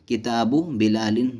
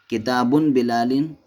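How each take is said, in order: First: किताबु ending in a bare short "u"; no tanween on किताबु. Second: किताबुन ending in a sounded "-un"; tanween on किताबुन. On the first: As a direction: say किताबु without a final n, then बिलालिन. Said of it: "सही क्या है?". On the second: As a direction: say किताबुन with a final n before बिलालिन. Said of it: "कहना सही नहीं है". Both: Shown as a demonstration.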